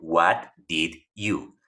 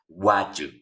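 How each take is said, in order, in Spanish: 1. Cada palabra se dice completa y por separado. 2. Las palabras se unen con una vocal débil. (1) "el what, el do, el you. También puede ser el did y el you" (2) "la contracción o reducción"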